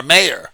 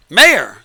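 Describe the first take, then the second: First: Said in the usual way. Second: Mayor said louder and punched, falling; stress on Mayor. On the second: Shown as a demonstration. Insisting to viewers the woman was a Mayor, emphatic. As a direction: hit the word Mayor hard so it lands. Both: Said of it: "M A Y O R".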